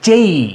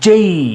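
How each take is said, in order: First: The vowel glides upward into an ee sound. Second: The vowel glides upward into an ee sound.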